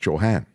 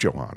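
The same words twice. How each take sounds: First: The H sound in the name is pronounced. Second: The H sound in the name is not pronounced. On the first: The speaker calls it right. "It's you're supposed to say the H in her name" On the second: The speaker calls it wrong. "but it's not Johan"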